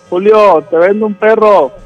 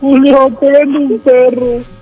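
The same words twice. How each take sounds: First: It is said in a normal, calm voice. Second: It is said in a crying, weeping voice.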